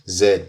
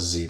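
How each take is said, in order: First: The letter name is said the non-American way. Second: The letter name is said the American way. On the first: This is how the speaker's home country says it. "In my country, pronounced as Z" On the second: This is how people in America usually say it. "over here in America, they pronounce Z most times"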